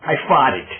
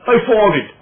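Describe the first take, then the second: First: Said in the usual way. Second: Louder, higher I farted; mocking demo. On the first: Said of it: "Think about it". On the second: Shown as a demonstration. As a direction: belt out "I farted" to show it sounds wrong. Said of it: "Don't sound right".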